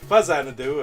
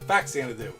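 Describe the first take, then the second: First: The name begins with a 'fuzz' sound. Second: The name begins with a 'fax' sound. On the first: "If it's Xanadu like the movie, it'd be Fuzzanadu" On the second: "like a fax"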